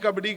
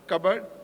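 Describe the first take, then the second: First: The word ends with a full final vowel. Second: The word is clipped, ending on a consonant. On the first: The speaker calls it wrong. "you should never say Kabaddi" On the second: The speaker calls it right. "You should say Kabad"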